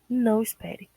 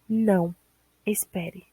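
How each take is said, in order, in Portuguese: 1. As duas palavras saem juntas, sem pausa. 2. Há uma pausa depois da primeira palavra. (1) "Mas não espere" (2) "Na primeira você tem não, espere"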